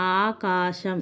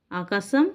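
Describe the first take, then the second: First: ఆకాశం drawn out as "aaa-kaa-sham"; ప్రకృతి ఉచ్చారణ. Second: ఆకాశం said with short vowels and plain s, "aakasam"; వికృతి ఉచ్చారణ. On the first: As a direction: lengthen both aa vowels in ఆకాశం and sound the "sha". (ఆకాశంను "ఆ-కా-శం" అని దీర్ఘాలతో సాగదీసి పలకాలి) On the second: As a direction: shorten the middle of ఆకాశం and use "sa" for "sha". (ఆకాశంను "ఆకసం" అని పొట్టిగా పలకాలి) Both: Shown as a demonstration. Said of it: "ప్రకృతి వికృతి".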